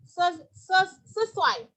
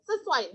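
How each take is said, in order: First: "sesuai" diucapkan tersendat dan keliru, contoh yang salah; lafal salah. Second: "sesuai" said slowly, syllable by syllable: se-su-ai; correct pronunciation. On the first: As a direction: say "sesuai" the wrong way, stumbling on "ses-". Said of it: "Jangan dibaca ses-, ses-, sesuai". (pelafalan "sesuai" yang salah, terbata-bata) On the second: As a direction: sound out "sesuai" in full. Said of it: "enggak sesuai gitu ya". ("sesuai" diucapkan jelas per suku kata) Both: Shown as a demonstration.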